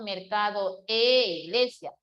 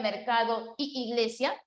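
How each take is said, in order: First: "e iglesia" with a clear, held "e" as eh; e replacing y. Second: "y iglesia" with two i sounds run into one long ee; cacophonous y iglesia. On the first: Teacher gives students the fix, a stressed eh in "e iglesia". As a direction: hold the "e" apart before "iglesia". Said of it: "para evitar esa cacofonía, digo". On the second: Teacher shows the clash to avoid, doubled ee in "y iglesia". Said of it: "para evitar esa cacofonía". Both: Shown as a demonstration.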